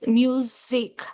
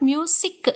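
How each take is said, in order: First: The middle consonant is a buzzing z sound. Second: The middle consonant is a hissing s sound. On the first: The speaker calls it right. "it is music. You must pronounce it as music" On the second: The speaker calls it wrong. "It's not music, sa"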